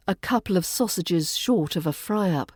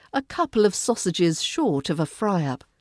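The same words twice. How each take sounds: First: Said in the usual way. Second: Mildly jolly, with clear s in "sausages"; like a silly joke at brunch; cheerful intonation. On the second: Shown as a demonstration. Teacher telling a silly joke at brunch, lightly cheerful. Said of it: "Use cheerful intonation".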